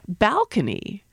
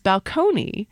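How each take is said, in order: First: The stress is on the first syllable. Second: The stress is on the second syllable. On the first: This is the newer pronunciation that people once complained about. "with the stress on the first syllable" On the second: This is the original pronunciation borrowed from Italian. "when it was borrowed in from Italian, it was balcony"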